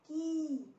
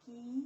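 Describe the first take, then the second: First: की higher, with a drawn-out ee; long i vowel. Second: की with a short i; short i vowel. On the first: Teacher reciting the vowel series, long vowel in की. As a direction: hold the ee in की long. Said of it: "बड़ी की मात्रा लगेगी". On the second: Teacher reciting the vowel series, short vowel in की. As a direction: keep की brief, no stretched vowel. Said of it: "छोटी ई की मात्रा". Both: Shown as a demonstration.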